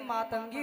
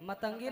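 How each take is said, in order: First: The first vowel is long. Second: The first vowel is short. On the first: The speaker calls it right. "मातंगी होता है" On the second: The speaker calls it wrong. "मतंगी नहीं"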